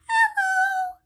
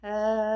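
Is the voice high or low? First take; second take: high; low. First: It is said in a very high voice. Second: It is said in a very low voice.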